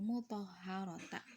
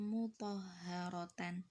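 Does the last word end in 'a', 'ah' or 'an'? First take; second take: a; an. First: The word ends in a lengthened 'ta'. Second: The word ends in 'tan'. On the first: "Bukan seperti itu" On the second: "Bukan seperti ini ya"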